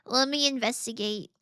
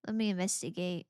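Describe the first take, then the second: First: "investigate" said louder and bouncier; playful stress on investigate. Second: Said in the usual way. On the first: Shown as a demonstration. Repeating the phrase to herself, louder on "investigate". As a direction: lean into "investigate" with play.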